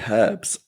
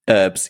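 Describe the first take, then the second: First: It is said British-style, with the h pronounced. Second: It is said American-style, with a silent h.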